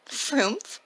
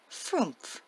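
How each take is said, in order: First: Surprised, rising Frumph?; puzzled question. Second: Small timid pixie voice, falling; wee little voice. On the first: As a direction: ask back the strange name, puzzled. Santa repeats the odd name. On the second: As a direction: say it shyly like a tiny pixie. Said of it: "In a wee little voice answered". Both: Acted.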